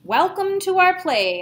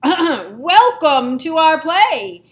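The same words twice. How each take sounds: First: It is said at normal, quieter volume. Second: It is said in a louder voice.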